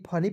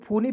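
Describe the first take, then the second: First: फनी with a short "uh" in the first syllable; short first vowel in फनी, long ee ending; correct reading. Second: फूनी with a long oo in the first syllable; wrong reading. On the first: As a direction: say फनी as "FUH-nee". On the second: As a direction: stretch फूनी's first vowel to "foo-nee". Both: Shown as a demonstration. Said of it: "फूनी पढ़ें sir कि फनी पढ़ें".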